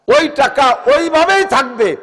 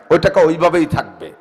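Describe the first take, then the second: First: Higher, louder and slow, leaning on ওইভাবেই; ওইভাবেই stretched and cried out; preaching emphasis. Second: Said in the usual way. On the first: Acted. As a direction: hammer the rule home from the pulpit. Preacher repeats rule, raised.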